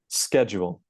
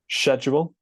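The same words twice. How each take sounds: First: It starts with a k sound, American style. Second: It starts with a sh sound, British style. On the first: "and then the American version" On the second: "starting with the British version"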